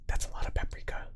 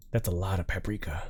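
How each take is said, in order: First: Soft unvoiced whisper of That's a lot of paprika; whispered aside. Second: Said in the usual way. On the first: Real, not acted. Whispered then repeated plainly.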